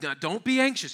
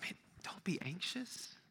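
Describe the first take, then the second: First: It is said in a scolding, stern tone. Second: It is said in a gentle, comforting tone.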